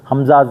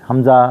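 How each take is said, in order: Both takes have the same delivery.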